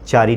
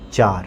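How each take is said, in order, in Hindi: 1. यह शब्द छोटी i स्वर पर खत्म होता है। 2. यह शब्द अंतिम व्यंजन r पर खत्म होता है। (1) "चारी नहीं" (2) "हर्ष इकार ... उसका उच्चारण नहीं किया जाता"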